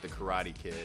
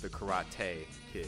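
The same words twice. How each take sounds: First: Karate is said the plain, everyday way. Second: Karate is said in a marked, unusual way. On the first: The speaker calls it wrong. "it's not the Karate Kid" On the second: The speaker calls it right. "It's pronounced the Karate Kid"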